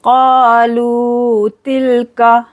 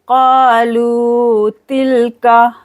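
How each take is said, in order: First: Kalu tilka, kalu long then tilka fast; tilka quick. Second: Kalu tilka with stretched kaa and luu; long lu. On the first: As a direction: stretch kalu, rush tilka. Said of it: "जल्दी से पढ़ेंगे तिलका". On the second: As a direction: draw lu, heavy ka. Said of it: "लू को खींचना है". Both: Shown as a demonstration.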